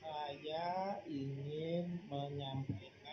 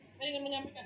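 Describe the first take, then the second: First: The phrase is said slowly and evenly. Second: The phrase is said quickly and evenly. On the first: "itu lambat ya" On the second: "itu cepat"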